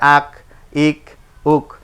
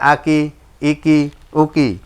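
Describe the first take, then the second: First: Each syllable ends with a bare consonant. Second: Each syllable ends with a short vowel. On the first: The reading stops here. "এটাই আর জি সাকিন" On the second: The reading continues without stopping. "না থামিলে যেমন আছে তেমন করে পড়তে হয়"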